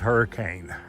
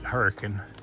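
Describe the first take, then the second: First: The name is said the standard way. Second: The name is said the old local way. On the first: This is the name as written on maps. "on the maps it says" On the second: This is how longtime locals say the name. "the old timers always pronounced it"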